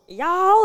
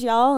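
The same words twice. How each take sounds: First: Y'ALL thrown back high, as a question; incredulous high-pitched parroting; mocking echo. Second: Said in the usual way. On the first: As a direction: imitate strangers mocking the word, pitch swooping up. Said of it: "they were just like, "Y'all?". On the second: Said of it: "they were just like".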